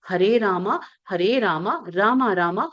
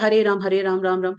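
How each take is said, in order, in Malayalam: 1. ഓരോ Rama-യും അവസാന സ്വരത്തോടെ പൂർണ്ണമായി പറയുന്നു. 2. ഓരോ Rama-യും ചുരുക്കി പറയുന്നു, അവസാന സ്വരം ഇല്ലാതാക്കി. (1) "ആ രീതിയിൽ തന്നെ അത് പോണം" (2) "പകുതി ... അതല്ല"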